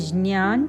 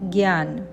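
First: The word begins with a j-ny sound. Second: The word begins with a g-y sound. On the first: This is the Sanskrit pronunciation. "संस्कृतमध्ये ज्ञान" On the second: This is the Hindi pronunciation. "हिंदीत ज्ञान"

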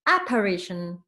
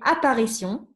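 First: The word is said with English pronunciation. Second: The word is said with French pronunciation. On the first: "And here is apparition" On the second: "In French, I would say apparition"

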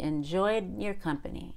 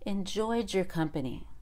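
First: The D is held and not blended with Y. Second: The D and Y blend into a J sound. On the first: "If I want to do a held D and not blend" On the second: "I end up saying jer"

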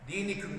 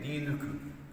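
First: The vowel after the n is an i. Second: The vowel after the n is a rounded u. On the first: The speaker calls it wrong. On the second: The speaker calls it right.

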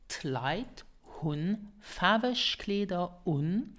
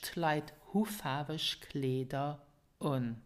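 First: The final N of the verb is pronounced. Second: The final N of the verb is dropped.

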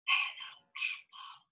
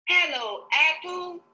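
First: It is said quietly. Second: It is said loudly.

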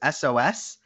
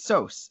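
First: The name is spoken as three separate letters. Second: The name is spoken as one word, like sauce. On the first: It sounds like the distress signal. The speaker calls it wrong. "I thought his name was SOS" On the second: It is the name's real pronunciation. The speaker calls it right. "But his name is Sos"

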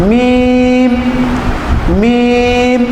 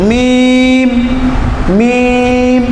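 No difference in how they are said.

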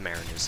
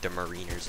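First: The word does not begin like 'marine'. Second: The word begins like the word 'marine'. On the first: The speaker calls it right. "that kind of flows off the tongue a little bit better" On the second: The speaker calls it wrong. "I used to call this gun the Mariners. Like, you know, Marine"

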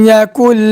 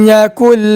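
No difference in how they are said.

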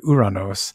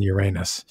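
First: The name ends with an 'oss' sound. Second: The name ends with an 'us' sound. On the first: This is the original Greek form of the name. The speaker calls it right. "so you should really say Uranos" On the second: This is the form people commonly prefer. The speaker calls it wrong. "but they just like saying Uranus"

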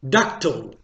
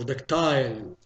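First: The word has a non-British pronunciation. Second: The word has a British English pronunciation.

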